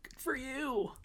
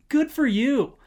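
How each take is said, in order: First: It is said in a sarcastic, mocking tone. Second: It is said in a warm, sincere tone.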